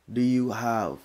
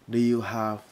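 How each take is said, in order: No difference in how they are said.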